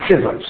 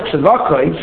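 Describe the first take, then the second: First: Tzivos with an E sound first; linked-form Tzivos. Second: Tzavakos in three syllables, with a K; full Tzavakos pronunciation. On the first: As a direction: say "Tzivos" as tzee-vos, two syllables. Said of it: "However, the pronunciation is instead of". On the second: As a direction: say "Tzavakos" as tz-va-kos, open A. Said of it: "the pronunciation is instead of Tzavakos". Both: Shown as a demonstration.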